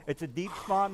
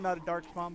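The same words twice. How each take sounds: First: Deep slightly lifted in contrast; stress on deep. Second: "not" hit to reject "dark"; stress on not. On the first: GM correcting the players, leaning lightly on deep. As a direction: mark "deep" as the correct word. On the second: GM correcting the players, leaning lightly on not. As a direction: push "not" before dark spawn. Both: Shown as a demonstration.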